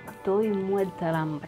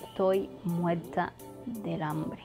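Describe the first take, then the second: First: The d sound is dropped and vowels linked. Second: The d sound is pronounced clearly.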